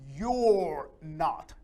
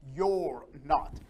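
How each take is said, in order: First: You and are merge into one short syllable. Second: You and are merge into one short syllable.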